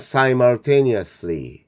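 It is said with an American accent.

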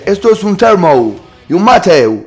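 It is said in an English-sounding gringo accent.

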